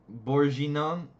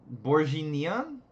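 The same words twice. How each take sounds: The two takes are said the same way.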